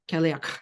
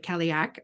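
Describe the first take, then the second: First: The word ends in a rough throaty rasp. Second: The word ends in a plain hard k. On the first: "how they say it's a Cadillac. And it's um, almost like you feel like you're throwing up a fur ball at the end" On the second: "we'll say it like that"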